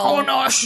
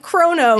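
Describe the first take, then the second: First: The name is said in a guttural Klingon style. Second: The name is said in a plain English style. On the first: The speaker calls it right. "which is like just Klingon pronunciation of Kronos" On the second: The speaker calls it wrong. "not like Kronos"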